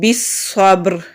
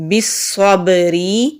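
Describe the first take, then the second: First: The word ends on a bare r consonant. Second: The word ends with a short i vowel. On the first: "यहाँ रुकेंगे तो हम रा के नीचे जो जेर है इसको साकिन करेंगे" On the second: "रा के नीचे जेर है"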